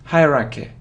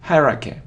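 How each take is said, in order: No difference in how they are said.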